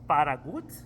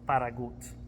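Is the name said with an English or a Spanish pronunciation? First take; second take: Spanish; Spanish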